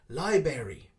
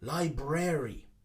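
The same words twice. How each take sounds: First: The middle R sound is left out. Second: The middle R sound is clearly said. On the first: The speaker calls it wrong. "miss out the R in the middle" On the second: The speaker calls it right. "we need to pronounce the R in the middle"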